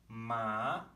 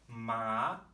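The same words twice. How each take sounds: No difference in how they are said.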